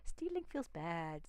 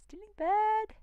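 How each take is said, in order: First: Said in the usual way. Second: Much higher and louder, blunt caveman voice; caveman blurt. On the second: Acted. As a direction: bellow it like a simple caveman. Sums up, then repeats it comically.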